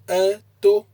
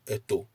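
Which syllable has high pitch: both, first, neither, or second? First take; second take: both; neither. First: The pitch is high on both syllables. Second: The pitch is low on both syllables. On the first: It means he went out. "if you place the intonation on the a and the to" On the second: It means a mother. "If you use no intonation at all"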